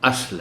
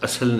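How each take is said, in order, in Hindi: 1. s और l के बीच कोई स्वर नहीं आता। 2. s और l के बीच एक स्वर डाला जाता है। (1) "अस्ल है" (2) "सो ये लफ्ज़ असल नहीं है"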